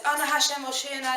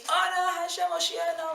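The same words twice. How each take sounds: First: Said in the usual way. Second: High, fervent shouted prayer; pitched-up mock scream of the whole crowd; congregation screaming. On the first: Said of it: "And the Chazan says". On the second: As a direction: cry it out like a packed shul shaking the walls. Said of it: "the whole shul starts screaming".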